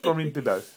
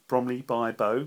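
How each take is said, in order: First: By and Bow are run together into bibbo. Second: By and Bow are said as two clear words.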